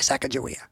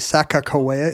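First: The middle consonant is a soft J sound. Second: The middle consonant is a hard K-like sound. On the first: The speaker calls it wrong. "Don't say Sacagawea" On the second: The speaker calls it right. "It's actually Sacagawea is closer to the"

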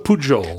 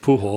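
First: The J is said like a soft zh sound. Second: The J is said like an H sound. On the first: The speaker calls it right. "The J wouldn't be a H in French. So Pujol" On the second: The speaker calls it wrong. "I believe it's Pujol"

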